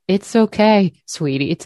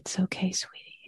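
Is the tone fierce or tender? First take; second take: fierce; tender. First: It is said in a firm, fierce tone. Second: It is said in a soft, tender tone. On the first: Protection and strength are being offered. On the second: Gentle comfort is being offered.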